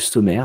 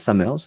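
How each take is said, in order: First: The name is said with a non-English pronunciation. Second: The name is said with an English pronunciation.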